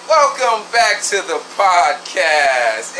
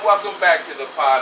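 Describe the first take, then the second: First: Slow, higher drawn-out host welcome; podcast host intro. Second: Said in the usual way. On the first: Shown as a demonstration. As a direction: stretch it out like a show opener. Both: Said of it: "it's time to say".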